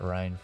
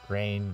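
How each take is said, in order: First: The vowel sounds like 'eye' in Rhine. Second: The vowel sounds like 'ay' in rain. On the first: It is said this way as a joke. "I just call it Rhine for the memes" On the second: This is how most people say it. "I know people pronounce it Rain"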